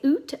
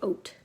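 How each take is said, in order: First: The vowel sounds like 'oot'. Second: The vowel sounds like 'oat'. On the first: This is not how the speaker says it. "I don't say oot" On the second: This is how the speaker says it. "I say oat"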